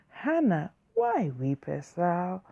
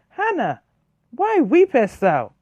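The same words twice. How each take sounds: First: It is said in a soft, gentle tone. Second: It is said in a sharp, harsh tone. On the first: The husband is speaking kindly to comfort her. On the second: The husband is speaking in the heat of a quarrel.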